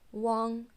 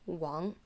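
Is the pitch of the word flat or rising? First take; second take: flat; rising. First: The pitch stays level and high. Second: The pitch rises from low to high. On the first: "Compare that with first tone, which would be Wang" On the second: "and second tone Wang"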